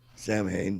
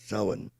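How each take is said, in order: First: It is pronounced the way it is spelled. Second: It is pronounced unlike the way it is spelled. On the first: The speaker calls it wrong. "you'd look at it and you think it would say Samhain" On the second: The speaker calls it right. "but no, it's Samhain"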